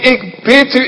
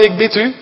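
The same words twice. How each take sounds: First: It is said earnestly and imploringly. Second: It is said lightly and offhandedly. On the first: The request comes from the depth of the heart. The speaker calls it right. "ik smeek het u. Broeders, uit het diepst van mijn hart" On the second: The request is made in passing. The speaker calls it wrong. "dat zegt hij niet zomaar even van mannen"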